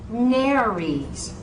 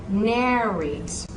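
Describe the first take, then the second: Both takes have the same delivery.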